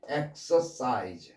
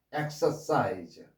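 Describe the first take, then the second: No difference in how they are said.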